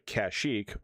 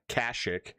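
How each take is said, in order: First: The name is said the familiar, usual way. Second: The name is said the game's different way.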